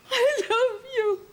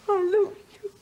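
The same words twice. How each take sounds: First: "I love you" slow and much higher, openly crying; sobbing. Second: Tearful plea. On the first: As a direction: let "I love you" dissolve into tears, slowly. Wife sobbing it again. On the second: Wife pleading, near tears. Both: Acted.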